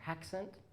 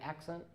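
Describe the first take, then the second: First: The word begins with an added h sound. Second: The word begins with a vowel, no h.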